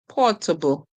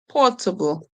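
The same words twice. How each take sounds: Both takes have the same delivery.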